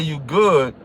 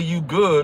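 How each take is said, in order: First: It sounds threatening, warning of a fight. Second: It sounds concerned, asking if you're okay.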